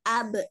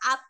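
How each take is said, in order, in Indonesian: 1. Huruf b terakhir memantul dengan gema pendek. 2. Huruf b terakhir dipotong pendek tanpa dilepas. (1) "tapi abe" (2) "Nggak sekedar ab"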